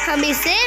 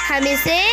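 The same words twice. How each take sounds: The two takes are said the same way.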